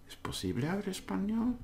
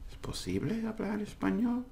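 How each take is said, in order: First: It is said as an unsure, questioning inquiry. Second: The same.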